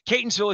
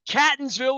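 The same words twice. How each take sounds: First: It is pronounced the way a local would. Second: It is pronounced the way an outsider would. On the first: The speaker knows the area. The speaker calls it right. "if you do" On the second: The speaker is not from the area. The speaker calls it wrong. "if you don't know how to pronounce it, if you're from out of town"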